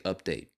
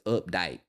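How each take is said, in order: First: The A sound is in the speaker's usual accent. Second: The A sound imitates the other woman's accent. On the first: "I would say update" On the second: "but she says update"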